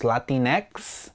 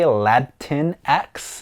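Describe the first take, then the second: First: Put-on "Latinx" said as la-TEEN-ex; "Latinx" with a long, smooth "teen"; pronunciation demo. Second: "Latinx" said as LAD-tin-ex; "Latinx" with a short "tin"; alternative pronunciation. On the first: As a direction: say "Latinx" slowly with an "ee" in the middle. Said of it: "It's pronounced Latinx". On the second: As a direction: say "Latinx" in slow separate beats, lad, tin, ex. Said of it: "some folks say Latinx". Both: Shown as a demonstration.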